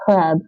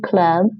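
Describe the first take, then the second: First: The word starts with a throaty h sound. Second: The word starts with a hard k sound. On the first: The speaker calls it right. "So it's cheb" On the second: The speaker calls it wrong. "Don't say kleb"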